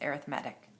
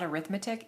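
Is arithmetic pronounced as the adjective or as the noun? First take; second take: adjective; noun. First: It is pronounced like the adjective form. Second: It is pronounced like the noun form. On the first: The speaker calls it right. "that is the way you say that when it's an adjective" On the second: The speaker calls it wrong. "It's not arithmetic"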